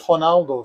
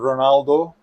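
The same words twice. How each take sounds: First: The name begins with an H sound. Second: The name begins with an R sound. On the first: This is how the name is said in Brazil. "his name here is actually Ronaldo" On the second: This is how the name is known abroad. "you may know the iconic footballer Ronaldo"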